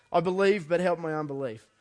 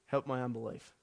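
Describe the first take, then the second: First: Loud, high cry of I believe, dropping on the plea; loud pleading cry; desperate cry. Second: Said in the usual way. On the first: Retold or imitated. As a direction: call it out like the father in anguish. Quoting the father's desperate cry.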